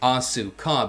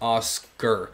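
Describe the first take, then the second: First: The u is voiced and no final r. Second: The u is silent with a final r.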